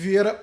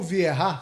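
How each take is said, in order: First: The name is said with a Portuguese pronunciation. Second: The name is said with a French pronunciation. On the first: "Eu vou ficar no Patrick Vieira mesmo" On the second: "Se você quiser usar um sotaque francês"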